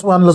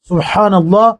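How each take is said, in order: First: It is said quickly and rushed. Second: It is said slowly and unhurried.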